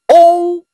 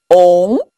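First: The pitch stays high and level. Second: The pitch rises from middle to high. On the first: "第一声" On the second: "第二声"

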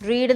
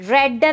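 First: The word has a long 'ee' vowel. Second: The word has a short 'e' vowel. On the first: It is the present tense form. "റീഡിൻ്റെ V1 എന്ന് പറയുന്നത് റീഡ് എന്ന് തന്നെയാണ്" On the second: It is the past tense form. "V2 എന്ന് പറയുന്നത് റെഡ് എന്നാണ്"

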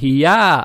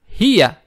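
First: The stress is on the second syllable. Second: The stress is on the first syllable. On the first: The speaker calls it wrong. "Не хия" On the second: The speaker calls it right. "ударение идет на первую букву"

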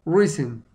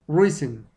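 No difference in how they are said.

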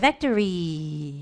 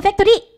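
First: The word ends with a lingering, drawn-out fade. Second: The word ends short and abruptly. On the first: The speaker calls it right. "factory 하고 여운이 좀 이렇게 남게" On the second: The speaker calls it wrong. "factory 이러지 말고"

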